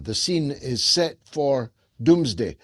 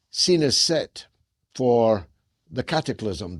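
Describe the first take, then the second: First: "The scene is set for doomsday" in one run, landing heavily on "doomsday"; weight on doomsday. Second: Scene is set, broken by long pauses before cataclysm; ominous halting delivery with weighty gaps. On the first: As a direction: say it in one breath and drop hard on "doomsday". Repeats the line straight through. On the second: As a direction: let "scene is set" hang, pause, then drop onto "the cataclysm". Dramatic build to doom line. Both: Real, not acted.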